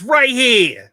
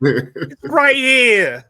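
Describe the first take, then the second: First: Put-on loud Brooklyn accent, pitched up. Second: Put-on slow, stretched-out loud Brooklyn accent. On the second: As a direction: drag it out slowly in a Brooklyn accent. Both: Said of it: "You mean my, my Brooklyn accent?".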